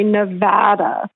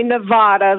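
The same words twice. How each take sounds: First: "Nevada" said ne-VAD-a; short "a" as in "cat" in "Nevada"; local pronunciation. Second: "Nevada" said ne-VAH-da; broad "ah" in the middle of "Nevada"; outsider pronunciation. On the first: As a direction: say "Nevada" like a local, middle rhymes with dad. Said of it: "you know somebody is from Nevada". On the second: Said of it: "they're not from here". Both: Shown as a demonstration.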